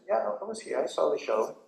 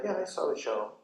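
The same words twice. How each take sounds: First: Said in the usual way. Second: Even, unexcited reply; calm, equanimous. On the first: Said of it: "You're very equanimous". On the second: Retold or imitated. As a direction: answer calmly, not worked up. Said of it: "You're very equanimous, very calm".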